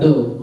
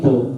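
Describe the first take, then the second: First: The consonant is a light plain d. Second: The consonant is heavy, with a full mouth. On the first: The speaker calls it wrong. "Jadi bukan do" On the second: The speaker calls it right. "tapi bo. Kalau kita rasakan mulut tuh kayak penuh gitu"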